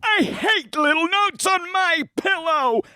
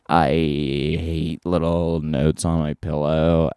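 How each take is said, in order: First: It is spoken in an invented futuristic style. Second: It is spoken with a creaky vocal fry. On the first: "a voice pattern that will happen in the future" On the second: "vocal fry, please"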